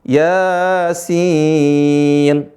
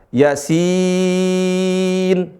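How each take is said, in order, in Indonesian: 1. Vokal pertama ditahan tepat dua harakat. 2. Vokal pertama dipotong pendek tanpa dipanjangkan. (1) "Enggak, tapi Yasin. Dua harokat" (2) "jangan sampai melupakan mad"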